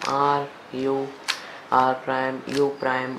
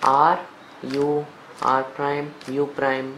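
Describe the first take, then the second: The two takes are said the same way.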